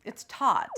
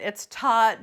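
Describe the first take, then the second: First: Said in the usual way. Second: "taut" said louder and punched; stress on taut. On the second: Shown as a demonstration. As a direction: lean hard on "taut". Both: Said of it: "I don't know how else to say it".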